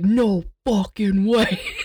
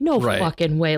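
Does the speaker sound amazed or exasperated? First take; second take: amazed; exasperated. First: It sounds amazed and delighted. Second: It sounds exasperated and let down. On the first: The twist was a thrilling surprise. "this wonderful memory of seeing The Sixth Sense and being like" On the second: The twist was a disappointing letdown. "a similar expletive, but different emotion"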